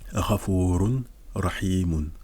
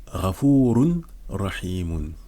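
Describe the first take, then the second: First: The n sound is pronounced before the r. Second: The same.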